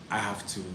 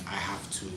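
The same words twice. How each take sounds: The two takes are said the same way.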